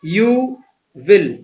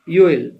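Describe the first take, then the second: First: Both words are said separately in full. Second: The words are merged into one syllable.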